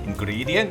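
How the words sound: It is said with an Indian English accent. "ขอสำเนียงอินเดีย"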